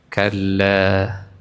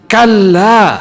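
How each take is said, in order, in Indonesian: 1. Kata ini diucapkan lemah, tanpa tenaga. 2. Kata ini diucapkan kuat, dengan tenaga.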